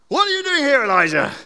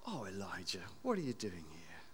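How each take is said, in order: First: Booming high angry challenge; angry God. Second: Much softer, lower tender question; gentle tender. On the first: Preacher voicing an angry God confronting Elijah, booming. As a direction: thunder it down like a furious God. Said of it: "The angry, powerful God". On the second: God gently asking Elijah, soft and tender. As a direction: ask it tenderly, like a loving father. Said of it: "Same question". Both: Acted.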